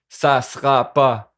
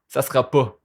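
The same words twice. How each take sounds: First: "pas" with a Quebec vowel, rounded toward "po"; "pas" said the Québécois way. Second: "pas" with its vowel pulled back toward "po"; "pas" in Québécois, closer to "po"; contrasting pas. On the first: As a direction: say "pas" slowly, vowel drawn back toward "po". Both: Shown as a demonstration. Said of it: "on prononce le pas, pas".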